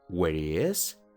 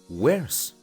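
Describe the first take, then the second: First: The word 'is' is said as a full syllable. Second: The word 'is' is reduced to a final s. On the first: The speaker calls it wrong. "En vez de decir" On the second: The speaker calls it right. "mejor di"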